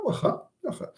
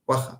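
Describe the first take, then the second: First: Understated threat on "waha"; threatening acceptance. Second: Understated, agreeable "waha"; willing acceptance. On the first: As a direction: say "waha" as a warning of payback later. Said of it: "you threaten him that you will retaliate". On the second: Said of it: "you accept willingly". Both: Shown as a demonstration.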